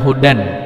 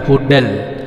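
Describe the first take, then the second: First: The n sound is pronounced clearly. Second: The n merges straight into the l sound. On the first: The speaker calls it wrong. "Jangan hudan" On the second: The speaker calls it right. "n-nya nggak kedengaran tetapi langsung ketemu huruf la"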